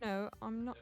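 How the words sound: It is said in a British accent.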